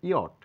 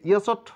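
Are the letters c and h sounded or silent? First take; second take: Silent; Sounded. First: The c and h are silent, not pronounced. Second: Extra consonant sounds are pronounced before the t. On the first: The speaker calls it right. "সঠিক উচ্চারণ করবো আমরা ইয়ট" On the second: The speaker calls it wrong. "এটাকে ইয়সট দেখে মনে হবে"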